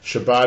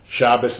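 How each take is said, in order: First: It is said the Sephardic way. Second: It is said the Ashkenazic way.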